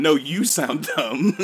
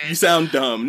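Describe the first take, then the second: First: "you" drawn out slowly in a mock comeback; stress on YOU. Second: Lobbing a playful, louder insult; mock insult. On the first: Rival Spanish speaker returning the insult, stress on "you". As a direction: throw it back, leaning hard on "you". The other side throws insult back. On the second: Two Spanish speakers squabbling over dialect, mock insult. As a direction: act out the opening jab.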